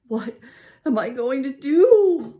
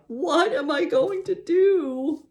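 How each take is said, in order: First: High, loud, slow wail; anguished wail. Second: Rising, desperate wail; louder wail. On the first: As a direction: wail it in despair, much higher. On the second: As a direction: wail even higher, slower and louder. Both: A narrator's reading. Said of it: "I wailed out loud".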